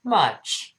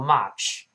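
First: "much" with a short, relaxed uh vowel; much, correct vowel. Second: "much" with an open ah, like match with a wide vowel; much, mispronounced. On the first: Teacher models much correctly, short relaxed uh in "much". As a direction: say "much" with lips only slightly apart. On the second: Teacher warns learners off this reading, open ah in "much". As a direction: say "much" wrongly as "mahch". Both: Shown as a demonstration. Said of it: "不要读much".

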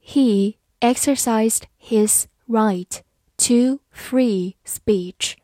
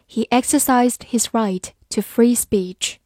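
First: Slow, clear, word by word; slow reading. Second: Said in the usual way. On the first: Shown as a demonstration. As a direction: read it slowly for learners to follow. (慢速清晰朗读) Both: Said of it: "好，慢慢来读".

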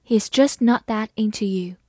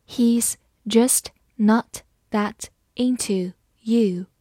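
First: Said in the usual way. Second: Slow, word by word, gaps between words; slow read-aloud. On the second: Shown as a demonstration. Teacher reading a film-title sentence for learners, slowly. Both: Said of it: "好，我们慢慢来读".

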